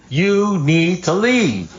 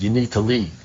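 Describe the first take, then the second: First: Every word of "You need to leave" stretched high and slow; emphatic, spelled out. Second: Said in the usual way. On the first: Retold or imitated. Sponsor to friend who won't understand, "You need to leave" drawn out emphatically. Exasperated repeat to uncomprehending friend.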